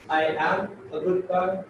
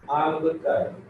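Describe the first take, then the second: First: I and am are said as two full words. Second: I and am merge into one contracted syllable. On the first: "it sounds simple" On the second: "we can use I'm a good guy"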